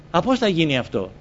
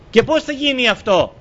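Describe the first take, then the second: First: Said in the usual way. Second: High, loud rhetorical question; preacher pressing the congregation with a loud question; emphatic question. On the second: Acted. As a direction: fire the question at the listeners.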